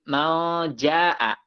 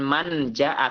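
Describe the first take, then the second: First: The n is hidden in a nasal sound. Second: The n is pronounced clearly before the j. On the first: The speaker calls it right. "hukumnya ikhfa" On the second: The speaker calls it wrong. "Bukan man ja'a"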